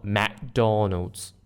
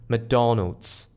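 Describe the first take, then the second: First: "McDonald's" very slow, with a full "mack" at the start; full "mack" vowel. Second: "McDonald's" with a weak schwa "muh" at the start; schwa first syllable. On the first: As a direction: drag out "McDonald's", stressing "Mack". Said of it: "not McDonald's". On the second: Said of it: "The sound is like M". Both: Shown as a demonstration.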